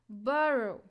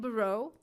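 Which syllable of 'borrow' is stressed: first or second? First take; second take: first; second. First: The stress is on the first syllable. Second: The stress is on the second syllable. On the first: The speaker calls it right. "The first syllable" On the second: The speaker calls it wrong. "We cannot say follow and borrow"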